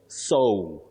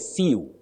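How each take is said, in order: First: The vowel glides toward an O sound. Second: The vowel stays steady without gliding. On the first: The speaker calls it right. "You say sew. ... It is sew with a glide O" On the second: The speaker calls it wrong. "many people say sew"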